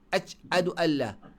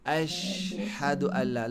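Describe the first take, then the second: First: The sh sound is held back and cut short. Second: The sh sound flows out continuously. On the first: The speaker calls it wrong. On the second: The speaker calls it right. "Lepas suara"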